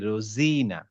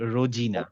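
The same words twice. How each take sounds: First: The middle consonant is a z sound. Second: The middle consonant is a j sound. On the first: The speaker calls it right. "জেড হচ্ছে এটা। আমি বলবো হচ্ছে রোজিনা" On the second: The speaker calls it wrong. "Not রোজিনা"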